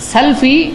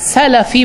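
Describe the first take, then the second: First: The l closes the first syllable: sal-fi. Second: A vowel follows the l: sa-la-fi. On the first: The speaker calls it wrong. "बहुत सारे लोग गलती से कहते हैं सल्फ़ी। सल्फ़ी technically ये सही नहीं है।" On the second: The speaker calls it right. "सलफ़ी बोला जाएगा... लाम पर ज़बर होना चाहिए, जज़म नहीं।"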